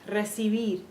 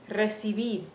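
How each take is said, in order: Both takes have the same delivery.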